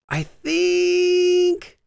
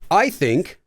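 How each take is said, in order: First: It is said with a raised tone. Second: It is said in a plain, level tone.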